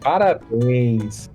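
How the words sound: It sounds Brazilian, with a nasal ending.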